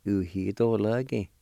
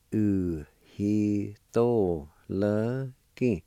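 First: Said in the usual way. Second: "Uhitoloki" stretched out very slowly, every syllable drawn long; slow demo pronunciation. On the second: Shown as a demonstration. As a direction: drag out "Uhitoloki" for learners to copy. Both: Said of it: "It's pronounced like this".

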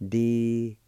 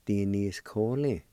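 First: Di-ni-s-ko-li broken into separate syllables, each one clear; teacher sounds out Di-ni-s-ko-li one syllable at a time. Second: Di-ni-s-ko-li run together as one slow, smooth word; whole word, slowly. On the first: Teacher sounding out a word for learners, syllable by syllable. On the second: Teacher blending the syllables for learners into one slow word. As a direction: blend Di-ni-s-ko-li into a single word, unhurried. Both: Shown as a demonstration. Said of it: "It's pronounced like this".

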